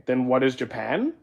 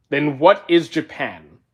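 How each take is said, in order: First: Said in the usual way. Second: Slow, with what leaned on hard; incredulous stress on what. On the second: Shown as a demonstration. Reading the question back slowly, what stressed. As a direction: streamer rereads a chat question, drawing out what in disbelief.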